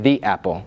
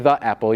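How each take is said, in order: First: 'The' is said with a long 'thee' vowel. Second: 'The' is said with a short 'thuh' vowel. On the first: The speaker calls it right. "you should say the apple" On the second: The speaker calls it wrong. "you're not supposed to say the apple"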